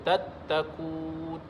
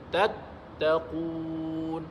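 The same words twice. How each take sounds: First: The final long vowel is held only briefly. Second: The final long vowel is held for six beats. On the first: The speaker calls it wrong. "Jangan baca tattaqun" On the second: The speaker calls it right. "Mad arid disukun, kan? Bacalah sampai enam harakat"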